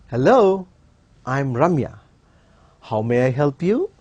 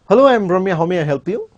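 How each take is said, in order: First: It is said slowly and politely. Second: It is said very fast and rushed.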